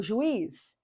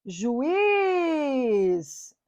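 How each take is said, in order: First: Said in the usual way. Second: "juiz" with a very long í; stressed vowel stretched. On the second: Shown as a demonstration. Teacher showing the tonic I, long held i in "juiz". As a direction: draw out the i of "juiz". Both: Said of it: "O I é tônico".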